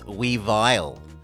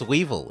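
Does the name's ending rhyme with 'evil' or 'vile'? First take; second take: vile; evil. First: The ending rhymes with vile. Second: The ending rhymes with evil. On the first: The speaker calls it wrong. "I don't think it's meant to rhyme with vile" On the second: The speaker calls it right. "It's meant to rhyme with evil"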